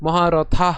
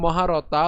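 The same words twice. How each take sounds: First: মহারথা ending in breath-released tha; aspirated th. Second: মহারতা ending in dry ta; no puff on the last syllable of মহারতা; unaspirated t shown. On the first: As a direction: puff air on the last syllable of মহারথা. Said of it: "এখানে আমি মহারথা উচ্চারণ করেছি". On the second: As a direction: mistaken maharata without aspiration. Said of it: "এখানে মহারতা উচ্চারণ করিনি". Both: Shown as a demonstration.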